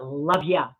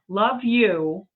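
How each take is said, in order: First: The second word is reduced to 'ya'. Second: The second word is a full 'you'. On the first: It is a casual throwaway. The speaker calls it wrong. "but love ya. I hate love ya" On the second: The speaker really means it. The speaker calls it right. "Not love you"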